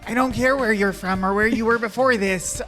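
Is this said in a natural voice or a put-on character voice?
put-on. It is said in a put-on character voice.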